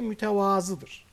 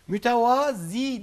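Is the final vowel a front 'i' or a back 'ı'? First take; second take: back ı; front i. First: The word ends in a back 'ı' vowel. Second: The word ends in a front 'i' vowel. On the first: The speaker calls it right. "de mütevazıdır" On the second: The speaker calls it wrong. "Mütevazi değildir"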